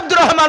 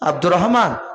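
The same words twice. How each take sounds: First: The name is shouted loudly. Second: The name is said quietly and gently. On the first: This startles the sleeper awake. The speaker calls it wrong. "এরকম করা যাবে না। চিৎকার করে ডাকলে" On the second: This lets the sleeper wake calmly. The speaker calls it right. "আস্তে করে ডাকুন"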